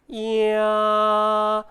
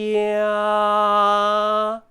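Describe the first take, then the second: The two takes are said the same way.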